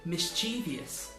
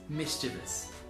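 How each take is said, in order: First: The word has an extra syllable. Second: The word has no extra syllable. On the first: The speaker calls it wrong. "pronounced mischievous with an extra syllable" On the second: The speaker calls it right. "the correct pronunciation is mischievous"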